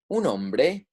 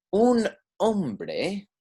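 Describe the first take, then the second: First: "un hombre" linked as one phrase; connected, quicker. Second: "un", then "hombre", drawn out and higher; slow, separated words. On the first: Teacher repeating the example for learners, words joined up. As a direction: run "un" straight into "hombre". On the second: Teacher presenting the example to learners, slow and separated. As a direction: model "un hombre" word by word, pitched up. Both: Shown as a demonstration.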